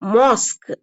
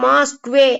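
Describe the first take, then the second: First: The word ends on a plain k sound. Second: The word ends with an added kway sound. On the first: The speaker calls it right. "இங்க வந்து கா சவுண்டோட நின்னுக்கும்" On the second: The speaker calls it wrong. "மாஸ்க்வே அப்படின்னு sound எல்லாம் வராது"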